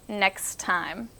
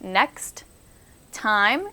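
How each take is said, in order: First: The t blends, leaving mostly s and k. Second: Each sound in next time is said separately. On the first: "It's more of an S and a K sound than anything" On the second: "Instead of doing next time"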